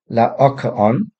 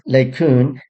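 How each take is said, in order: First: The name is said in its full, careful form. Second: The name is said in a short, casual form. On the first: "Strictly speaking, it should be" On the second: "So I pronounce this"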